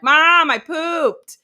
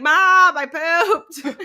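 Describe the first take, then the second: First: Put-on high, slow, loud toddler voice; drawn-out proud child; little kid announcing. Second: Put-on high, loud synthetic child voice; canned electronic toddler announcement; robot app voice. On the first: Friend's daughter calling out to mom, toddler voice. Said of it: "their daughter is like". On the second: Litter box app alerting its owner, robotic kid voice. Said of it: "an app that, like, is literally like".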